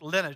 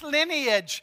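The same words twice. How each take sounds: First: The word is shortened and said quickly. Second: The word is said in full, unshortened. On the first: "I just like to shortchange it, just like lineage, like sounds quick and fast and easy" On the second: "And Ash is always like, it's lineage"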